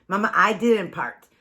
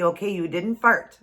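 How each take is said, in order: First: Put-on "part" said with a p for the f of fart, slow and childlike; child's lisp. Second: Said in the usual way. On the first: Mom imitating her lisping son's fart denial. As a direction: lisp the f into a p, like a toddler. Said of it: "a little bit of a lisp". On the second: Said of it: "instead of part".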